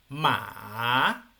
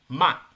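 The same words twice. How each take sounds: First: The pitch dips low and then rises. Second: The pitch falls sharply and forcefully. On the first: "una pronunciación que baja y luego asciende" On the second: "Tono cuatro que desciende seco"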